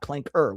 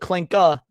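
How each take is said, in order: First: The word ends with a hard R sound. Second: The word ends without an R sound. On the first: The speaker calls it wrong. "We don't use the hard R around here" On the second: The speaker calls it right. "I said clanka"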